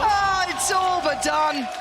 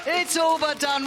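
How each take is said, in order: First: Slow, high, loud shouted call; drawn-out shout. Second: High, loud, quicker call; shouted repeat. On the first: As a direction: stretch it out and scream it. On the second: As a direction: shout it again, clipped. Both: Real, not acted. Same words repeated.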